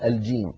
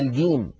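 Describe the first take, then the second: First: The word starts with a j sound. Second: The word starts with a hard g sound. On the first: The speaker calls it right. "بدل الجيم" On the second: The speaker calls it wrong. "يجعلون مكان الجيم حرف صوت الجا جا"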